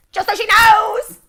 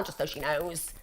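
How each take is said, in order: First: High, drawn-out yell; loud, high, slow hammed-up shout; mock shout. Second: Said in the usual way. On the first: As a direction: bellow it slowly as a comic threat. Mock threat, repeated as a shout.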